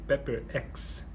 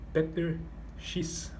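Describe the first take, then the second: First: It is said with English sounds. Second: It is said with Portuguese sounds.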